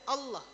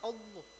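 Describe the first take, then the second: First: It is said with still, unrounded lips. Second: It is said with moving, rounded lips. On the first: The speaker calls it right. "bibirnya tidak boleh gerak" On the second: The speaker calls it wrong. "salah nyebutkan Allahnya"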